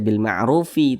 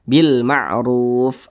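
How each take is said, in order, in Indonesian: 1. Kata ini berakhir dengan vokal tambahan setelah f. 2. Kata ini berakhir jelas pada bunyi f. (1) "tidak dibaca bil ma'rufi" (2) "tapi dibaca bil ma'ruf"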